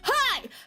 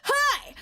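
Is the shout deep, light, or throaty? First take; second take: throaty; throaty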